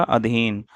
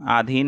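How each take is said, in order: First: अधीन opened with short "a"; short first vowel. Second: आधीन opened with long "aa"; wrong long vowel. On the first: Teacher answering with correct form, अधीन with short a. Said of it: "इसका शुद्ध रूप क्या होगा". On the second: Teacher showing the mistake, आधीन with long opening aa. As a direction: stretch the first vowel of आधीन. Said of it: "आधीन नहीं होता है". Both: Shown as a demonstration.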